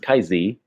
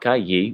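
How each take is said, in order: First: The second word begins with a z sound. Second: The second word begins with a y sound. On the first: This is the Northern way of saying it. "on Google, it was Kai Z, Z" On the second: This is the Southern way of saying it. "Yi, it's like a Y, right?"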